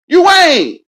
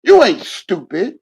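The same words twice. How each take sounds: First: "You ain't" yelled much higher and louder; shouted insistence, much higher and louder; sudden shout. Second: Said in the usual way. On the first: Acted. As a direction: blast "You ain't" out at the top of the voice.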